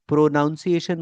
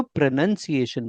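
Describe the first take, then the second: First: "प्रोनाउंसिएशन" with the "nown" sound in the middle; wrong pronunciation. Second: "प्रोनंसिएशन" with a short "nun" in the middle, no "now"; correct pronunciation. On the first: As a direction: say "प्रोनाउंसिएशन" with "naun" as in pronounce. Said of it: "मत बोला करो". (गलत उच्चारण, बीच में "नाउं" के साथ "प्रोनाउंसिएशन") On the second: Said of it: "बोला करो". (सही उच्चारण, बीच में छोटा "नं" के साथ "प्रोनंसिएशन") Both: Shown as a demonstration.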